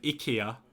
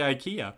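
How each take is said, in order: First: The name is said with Swedish pronunciation. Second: The name is said with English pronunciation. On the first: "That's how we say it in Swedish" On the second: "if I'm talking to an American or an uh, or an English person, I would say IKEA"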